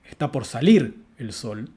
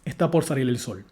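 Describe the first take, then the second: First: The main emphasis falls on the word salir. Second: The main emphasis falls on the word sol. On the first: "estamos asignando un énfasis a la palabra salir" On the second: "en un contexto neutro ... estamos haciendo énfasis ... sobre la palabra sol"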